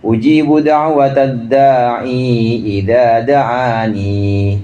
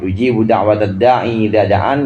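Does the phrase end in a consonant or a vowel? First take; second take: vowel; consonant. First: The final word ends with an added ee vowel. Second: The final word ends on the consonant n. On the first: It follows the reading of particular reciters. "Dua-duanya dibaca dengan ada menetapkan ya-nya" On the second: It follows the common reading in most copies. "ya-nya dihilangkan"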